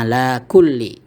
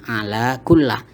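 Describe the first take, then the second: First: The last word ends in an 'ee' vowel. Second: The last word ends in an 'ah' vowel. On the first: The speaker calls it right. "sehingga dibaca ala kulli" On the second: The speaker calls it wrong. "bukan ala kullah"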